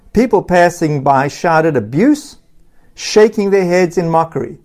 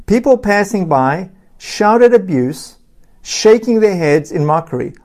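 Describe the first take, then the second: First: Said in the usual way. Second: "People passing by shouted abuse" slowed and spaced out for emphasis; emphatic repeat. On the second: Shown as a demonstration. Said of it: "I'll repeat that. Remember this".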